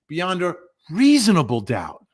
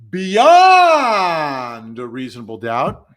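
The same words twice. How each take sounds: First: The word reasonable is strongly emphasized. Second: The word reasonable carries no special emphasis. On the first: The doubt must be a reasonable one. "then a prosecutor says, ... It's got to be reasonable" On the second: The doubt itself is what counts. "like the defense says"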